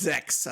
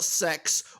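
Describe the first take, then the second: First: The word begins with a buzzing Z sound. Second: The word begins with a hissing S sound. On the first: The speaker calls it right. "It's Zex, as they say in Germany" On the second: The speaker calls it wrong. "not sex or six"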